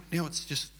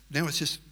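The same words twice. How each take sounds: The two takes are said the same way.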